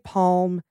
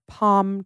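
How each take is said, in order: First: The word is said with an audible L sound. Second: The word is said with no L sound. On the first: "I say the L in those. I say palm" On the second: "the L is silent, so the words sound like palm tree"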